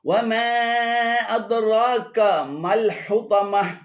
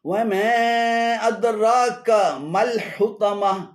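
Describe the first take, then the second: Both takes have the same delivery.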